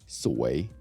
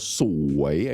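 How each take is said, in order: First: The word is said at normal conversational speed. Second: The word is said slowly with a drawn-out tone. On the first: The speaker calls it right. "regular speed will be soi" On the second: The speaker calls it wrong. "You don't have to go soi. I mean, that's weird"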